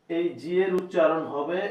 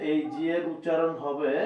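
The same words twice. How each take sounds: The two takes are said the same way.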